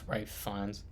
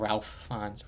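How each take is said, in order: First: The first name sounds like Rafe, without an L. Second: The first name is said as Ralph, with an L. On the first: The speaker calls it right. "I think it's pronounced it's pronounced Ray Fiennes" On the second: The speaker calls it wrong. "not Ralph Fiennes"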